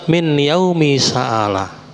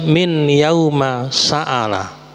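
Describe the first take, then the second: First: The word yaum ends with an 'i' vowel. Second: The word yaum ends with an 'a' vowel. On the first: "juga boleh dibaca" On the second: "lebih baik dimabnikan fathah"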